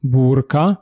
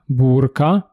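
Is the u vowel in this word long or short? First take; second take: long; long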